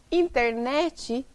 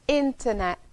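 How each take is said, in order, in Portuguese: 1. Um i extra é acrescentado no fim. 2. A palavra termina direto na consoante final.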